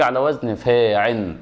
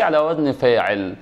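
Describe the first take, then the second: First: "فاعل" said as faa-'in, no final l; lam dropped. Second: Said in the usual way. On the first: Shown as a demonstration. Teacher recaps weak-ending verbs, lam dropped into nunation. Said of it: "واذا جه معتل الاخر". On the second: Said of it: "يبقى احنا كده عرفنا حاجه".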